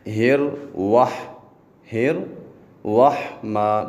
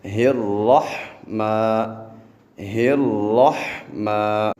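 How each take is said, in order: First: ہر وح with lips rounded, a واو after را, slow; wrong rounded vowel. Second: ہرحمہ said straight, lips unrounded, slow; correct pronunciation. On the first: Teacher imitating the rounded-lip mistake. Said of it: "را کے بعد واو کی آواز". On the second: Teacher giving the correct form after mistakes. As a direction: keep ہرحمہ flat with no واو. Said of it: "ہم نے پڑھنا ہے". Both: Shown as a demonstration.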